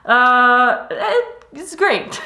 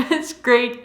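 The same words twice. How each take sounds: First: A light German accent; slight German accent, high and slow on great. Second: Said in the usual way. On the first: Real, not acted. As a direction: let a hint of German slip in. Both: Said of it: "switching into my German accent".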